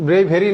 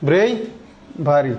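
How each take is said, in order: First: "ব্রেভেরি" run together with "ve" in the middle; mispronounced bravery. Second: "ব্রেভারি" very slowly, with a pause after "brei"; correct bravery, broken up. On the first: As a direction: say "ব্রেভেরি" as bre-VE-ri, the mistaken way. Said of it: "না কিন্তু". ("ব্রেভেরি", ভুল উচ্চারণে মাঝে "ভে") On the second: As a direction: model "ব্রেভারি" for a class as BREI... va-ri. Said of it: "এর উচ্চারণ হবে এই". ("ব্রেভারি", ধীরে ভেঙে "ব্রেই... ভারি") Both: Shown as a demonstration.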